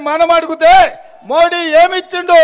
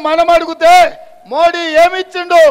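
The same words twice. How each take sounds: The two takes are said the same way.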